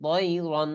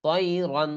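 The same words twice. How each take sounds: No difference in how they are said.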